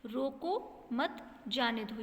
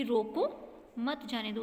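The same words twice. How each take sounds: First: Slow "रोको मत", then a break before "जाने दो"; pause after मत. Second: "रोको" set apart with a comma pause, then "मत जाने दो" together; pause after रोको. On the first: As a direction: take it slowly, setting "जाने दो" apart after "मत". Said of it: "जाने दो की बात स्पष्ट हो रही है". (धीरे "रोको मत", रुककर "जाने दो") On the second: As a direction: break after "रोको", keep "मत जाने दो" as one phrase. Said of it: "उसमें रोको के बाद में". ("रोको" के बाद रुककर "मत जाने दो") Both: Shown as a demonstration.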